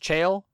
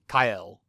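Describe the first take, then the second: First: The name begins with a soft ch sound. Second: The name begins with a hard k sound. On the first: The speaker calls it wrong. "I had been mispronouncing one of the names" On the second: The speaker calls it right. "In the Latin, actually, it would be Kael"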